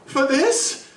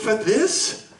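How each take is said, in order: First: Much higher, louder repeat of the question; outraged disbelief. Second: Rising, higher disbelieving question; can't believe what he's hearing; incredulous. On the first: Doctor to the lawyer, repeating it, higher and outraged. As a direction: throw it back at him, appalled. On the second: Doctor to the lawyer, stunned at the suggestion, rising disbelief. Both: Acted. Doctor appalled at legal excuse.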